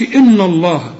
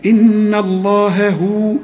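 First: إن الله with the N wrongly thickened; wrong heavy N. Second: إن الله هو slowly, with light N and H; light sounds demonstrated. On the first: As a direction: darken the N of إن before الله. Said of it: "هنا ما نقولش". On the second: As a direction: hold the N of إن, keep the "ha" thin in الله هو. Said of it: "مرققين، خد بالك". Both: Shown as a demonstration.

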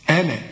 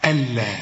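First: "ألا" with the l said short, not doubled; single light consonant. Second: "ألا" leaning on a doubled, held l; doubled consonant. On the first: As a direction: say "ألا" without pressing the consonant. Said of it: "لازم تتك على الحرف تبينه". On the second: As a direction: press and hold the l in "ألا". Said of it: "فيها فرق ضخم جدًا". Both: Shown as a demonstration.

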